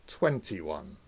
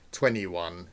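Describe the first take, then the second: First: The t after n is clearly pronounced. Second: The t after n is dropped.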